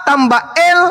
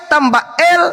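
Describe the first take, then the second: No difference in how they are said.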